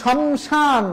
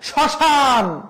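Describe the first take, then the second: First: The m sound is clearly pronounced. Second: The m is silent and the vowel is nasalized. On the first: The speaker calls it wrong. "শমশান না" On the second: The speaker calls it right. "প্রথম বর্ণে ম ফলা থাকলে উচ্চারণ হয় না"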